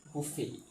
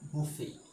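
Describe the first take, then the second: Both takes have the same delivery.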